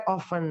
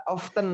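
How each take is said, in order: First: "often" as "off-en", silent T; often without T. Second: "Often" as "off-ten", T sounded. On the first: Teacher allowing two readings, often as "off-en". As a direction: drop the T in "often". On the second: Teacher allowing two readings, Often as "off-ten". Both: Shown as a demonstration. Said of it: "T-nya dihilangkan".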